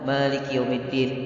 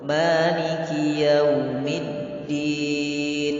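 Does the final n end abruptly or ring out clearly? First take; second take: abrupt; ringing. First: The final n is cut off abruptly. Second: The final n rings out clearly. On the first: The speaker calls it wrong. "mendadak tidak boleh" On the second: The speaker calls it right. "Berikan sifat uh, bayyinah pada huruf nun"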